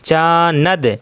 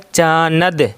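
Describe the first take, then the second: The two takes are said the same way.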